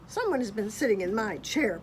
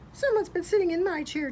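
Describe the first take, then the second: First: It is said in a great big growling voice. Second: It is said in a middle-sized voice. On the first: "Papa Bear growled in his great big voice" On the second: "said Mama Bear in her middle-sized voice"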